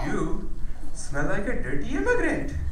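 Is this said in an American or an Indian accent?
Indian. It is said in an Indian accent. It comes across as a compliment.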